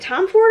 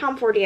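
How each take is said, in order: First: The name ends on the final d sound. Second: The name ends with an added ee vowel. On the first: "Is it Tom Ford" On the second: "or Tom Fordy?"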